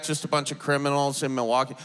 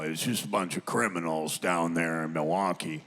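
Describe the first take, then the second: First: Quick, questioning repeat in your own voice; fast, doubting echo with a rise at the end; incredulous echo. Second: Very deep, softer throaty drone, a little snarly; didgeridoo-like low grumble; Uncle Jack. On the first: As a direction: throw the claim back as a skeptical question. Throws uncle's words back in disbelief. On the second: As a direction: imitate a disparaging uncle in a rumbling low register. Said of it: "he can get a little snarly". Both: Retold or imitated.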